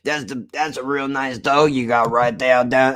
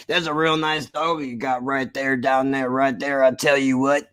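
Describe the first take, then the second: First: A mild imitation of a Texas man's accent. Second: Put-on Texas accent. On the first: Streamer imitating a Texan at the corner store, Texas accent. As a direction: imitate a Southern guy praising a dog, Texas accent. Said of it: "He's like". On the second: Streamer retells a Texan complimenting his dog, Texas accent. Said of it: "I can't even do his voice justice because mine is straining".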